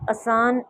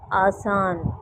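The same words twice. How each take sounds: First: The first vowel is a short a. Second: The first vowel is a long aa. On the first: The speaker calls it wrong. "अशुद्ध बोलूँगी मैं पहले" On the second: The speaker calls it right. "उसके बाद शुद्ध शब्द बोलूँगी"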